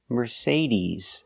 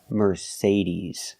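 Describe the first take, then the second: First: The last vowel is a long ee sound. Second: The same.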